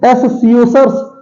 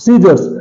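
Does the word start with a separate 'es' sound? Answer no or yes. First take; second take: yes; no. First: The word starts with a separate 'es' sound. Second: The word starts directly with an 's' sound. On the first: The speaker calls it wrong. "एस सीओसर्स नहीं बोलते" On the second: The speaker calls it right. "इसे सीजर्स बोलते हैं"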